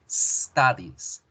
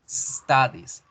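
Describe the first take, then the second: No difference in how they are said.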